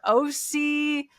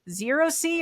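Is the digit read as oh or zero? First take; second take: oh; zero. First: The digit is read aloud as oh. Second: The digit is read aloud as zero. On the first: "we tend to say O" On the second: "written, it's a zero"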